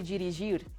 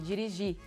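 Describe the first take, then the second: First: The final R is clearly pronounced. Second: The final R is silent. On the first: The speaker calls it wrong. "you don't say" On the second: The speaker calls it right. "the last syllable is stressed and the R is silent"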